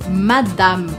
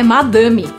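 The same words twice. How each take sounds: First: It is pronounced with a French accent. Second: It is pronounced with a Brazilian Portuguese accent. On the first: The speaker calls it right. "em francês, a gente fala Madame" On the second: The speaker calls it wrong. "E não é madame, ... Madame é a maneira abrasileirada"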